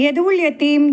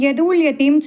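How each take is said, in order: No difference in how they are said.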